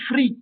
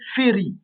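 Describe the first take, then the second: First: The first vowel is dropped, making one syllable. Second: A short vowel follows the first consonant. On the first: The speaker calls it wrong. "On ne pourra pas dire fri" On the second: The speaker calls it right. "mais féri"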